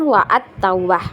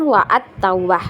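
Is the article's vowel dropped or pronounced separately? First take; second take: separately; separately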